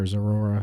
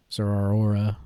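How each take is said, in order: First: Zeraora with the middle vowels merged into one "or"; shortened variant pronunciation. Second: Zeraora with the middle stretched into separate "ah-or" vowels; drawn-out variant pronunciation. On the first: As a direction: say Zeraora as "zer-OR-uh", three syllables. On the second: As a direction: say Zeraora as "zer-ah-OR-uh", all vowels sounded. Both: Shown as a demonstration. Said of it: "however you say his name".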